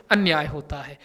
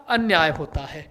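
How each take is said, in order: Both takes have the same delivery.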